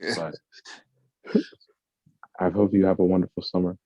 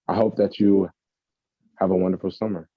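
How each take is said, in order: First: It is said in an affected, put-on voice. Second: It is said in the speaker's normal voice.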